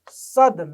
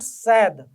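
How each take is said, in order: First: It is not pronounced like the English word sad. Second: It is pronounced like the English word sad. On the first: It is the first part of the word Sadan. The speaker calls it right. "So it is sad" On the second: It is the English word meaning unhappy. The speaker calls it wrong. "not sad, ... don't go for the literal meaning of the English word sad"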